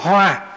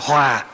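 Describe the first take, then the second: First: The word is said on a level tone. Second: The word is said on a low falling tone. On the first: A flower. "chữ H rồi chữ O" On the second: Harmony. "chuyển nó thành dấu huyền"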